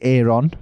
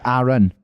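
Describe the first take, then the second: First: The name is said in an American accent. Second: The name is said the way it's spelled. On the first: The speaker calls it wrong. "Americans say Aaron, which is wrong" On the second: The speaker calls it right. "we say Aaron, because that's how it's spelled"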